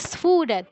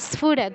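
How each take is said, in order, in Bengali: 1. শব্দটি 'ph'-এর আগে একটি 's' দিয়ে শুরু হয়। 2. শব্দটি 'ph'-এর আগে একটি 's' দিয়ে শুরু হয়।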